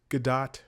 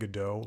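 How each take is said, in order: First: The name does not sound like the play title. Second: The name sounds like the play title Godot. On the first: This is how the actress herself says it. "I think she says Gadot" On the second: This is how most other people say it. "everybody else has been saying Godot, like waiting for Godot"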